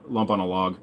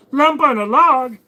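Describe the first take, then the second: First: Said in the usual way. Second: Much higher, slow, goofy character voice; silly put-on voice. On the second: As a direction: ham up the phrase in a cartoonish high voice. Same phrase, silly put-on voice.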